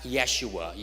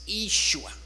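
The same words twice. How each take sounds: First: The name is pronounced the Hebrew way. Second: The name is pronounced the Aramaic way. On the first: The speaker calls it wrong. "Not Yeshua. Yeshua is the, is the Hebrew way of pronouncing it" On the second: The speaker calls it right. "It's Yeshua"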